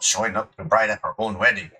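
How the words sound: It is said in a put-on character voice.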